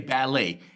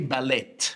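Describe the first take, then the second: First: The final T sound is left silent. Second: The final T sound is pronounced. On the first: The speaker calls it right. "We say ballet" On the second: The speaker calls it wrong. "So there's a T here, but we don't say ballet"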